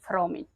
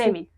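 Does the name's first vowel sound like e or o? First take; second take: o; e. First: The first vowel sounds like o. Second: The first vowel sounds like e. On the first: This is the adapted, habitual local pronunciation. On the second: This is the original pronunciation of the surname.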